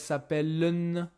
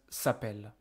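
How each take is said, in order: First: The ending is sounded as a nasal 'un' vowel. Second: The word ends on the 'l' with no vowel. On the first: The speaker calls it wrong. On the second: The speaker calls it right.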